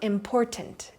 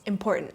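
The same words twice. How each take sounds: First: The middle T is clearly pronounced. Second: The middle T is left out. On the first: The speaker calls it wrong. "So it's not important" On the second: The speaker calls it right. "middle T does not get pronounced"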